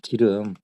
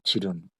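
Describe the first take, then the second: First: The word starts with a hard g sound. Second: The word starts with a j sound. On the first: This is the standard Seoul form. The speaker calls it right. "서울에 오니까 기름이라고 그러더라고" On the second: This is the countryside dialect form. The speaker calls it wrong. "충청도는 지름이라 그러더라고요"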